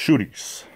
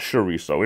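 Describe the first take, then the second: First: It is said the Portuguese way. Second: It is said the Mexican Spanish way. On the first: It is how Portuguese people say it. The speaker calls it right. "If you're Portuguese, you don't say it that way" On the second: It is Americanized for outsiders. The speaker calls it wrong. "the Mexican pronunciation"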